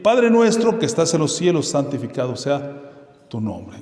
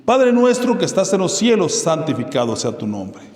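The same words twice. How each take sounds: First: Solemn recitation. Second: Opening line high and loud, then settling; solemn recitation. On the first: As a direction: call out to the Father in prayer. Recites the Lord's Prayer again. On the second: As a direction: intone the prayer like an invocation. Recites the Lord's Prayer. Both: Acted.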